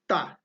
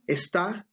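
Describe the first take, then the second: First: The word is said in a shortened form. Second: The word is said in its full form. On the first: "in informal communication" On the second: "Instead of saying está"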